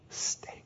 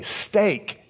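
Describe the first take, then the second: First: Hushed, voiceless repeat of steak; whispered echo. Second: Said in the usual way. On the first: Acted. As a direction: whisper the word as if savouring it. Echoes the word to himself, torn.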